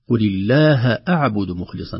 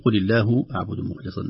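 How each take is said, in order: First: The word Allah ends with a fatha vowel. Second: The word Allah ends with a different vowel. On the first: The speaker calls it right. "لفظ الجلالة هنا منصوب" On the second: The speaker calls it wrong. "لا نقول"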